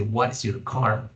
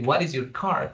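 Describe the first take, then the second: First: "What is your car?" spelled out word by word, slowly; slow, careful teaching read; slow and deliberate. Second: "What is your car?" asked with a rising lift at the end; quoted as a rising question; questioning rise. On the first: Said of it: "pero no podemos decir". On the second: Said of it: "we are not going to say". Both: Shown as a demonstration.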